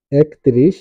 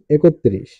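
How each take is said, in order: First: একত্রিশ as written, "ek-trish", rising; spelling reading. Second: একত্রিশ as "e-kot-trish", falling; spoken pronunciation. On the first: Teacher reads out a number's spelling, একত্রিশ as "ek-trish". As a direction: say একত্রিশ with k straight into t. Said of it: "বানান". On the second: Teacher demonstrates pronunciation, একত্রিশ as "e-kot-trish". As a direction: add an o after the k in একত্রিশ. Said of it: "উচ্চারণ". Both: Shown as a demonstration.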